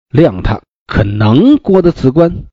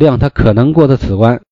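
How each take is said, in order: First: It is said as a sarcastic, doubting statement. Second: It is said as a sincere, straightforward statement. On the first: He surely cannot pass this test. The speaker calls it right. "正常的读法应该是" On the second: He is very likely to pass this test. The speaker calls it wrong. "他有可能，非常有可能过的此关"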